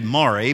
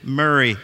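First: The first syllable sounds like 'more'. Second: The first syllable sounds like 'murr'. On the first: The speaker calls it wrong. "It's spelled phonetically Maury" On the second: The speaker calls it right. "but of course we pronounce it Murray County"

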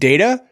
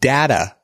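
First: The first vowel is a long A. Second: The first vowel is a short A. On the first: "where that first A is a long A" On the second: "where that first A is a short A"

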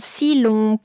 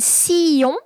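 First: An L sound joins the two vowels. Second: The two vowels meet with no consonant between. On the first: "you can actually insert this L for the pronunciation" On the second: "two vowel sounds"

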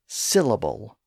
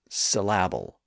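First: The stress is on the first syllable. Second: The stress is on a later syllable. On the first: The speaker calls it right. "we have a tendency to stress the first syllable in a multisyllable word" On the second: The speaker calls it wrong. "not syllable"

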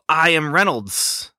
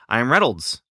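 First: The final S sound is drawn out, hissing. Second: The final S sound is short and normal. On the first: The speaker calls it wrong. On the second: The speaker calls it right.

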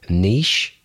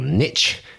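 First: The word is said the British way. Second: The word is said the North American way.

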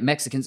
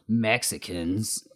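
First: The word is said with a neutral tone. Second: The word is said with a contemptuous tone. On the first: The speaker refers to the group plainly. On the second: The speaker looks down on the group.

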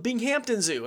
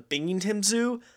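First: The second part is said fully as 'Hampton'. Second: The second part is reduced, not said as 'Hampton'. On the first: The speaker calls it wrong. "you don't pronounce the Hampton" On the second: The speaker calls it right. "you don't pronounce the Hampton"

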